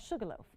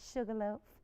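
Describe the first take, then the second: First: It is said in the speaker's ordinary accent. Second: It is said in a Southern American accent.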